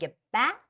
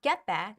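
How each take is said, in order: First: The word back carries the stress. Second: The word get carries the stress. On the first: The speaker calls it right. "you'd rather stress back" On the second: The speaker calls it wrong. "you do not stress get"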